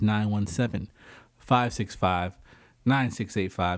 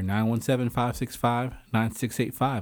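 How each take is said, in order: First: The number is said slowly. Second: The number is said at normal speed.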